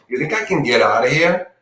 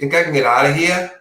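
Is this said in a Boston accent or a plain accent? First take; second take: plain; Boston. First: It is said in a plain, everyday accent. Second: It is said in a put-on Boston accent.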